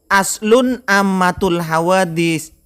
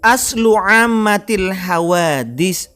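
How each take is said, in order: First: The first word ends with an added n sound. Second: The first word ends in a vowel without n. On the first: The speaker calls it wrong. "bukan aslun ammatul hawadis" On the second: The speaker calls it right. "Wan nadru aslu ammatil hawadis"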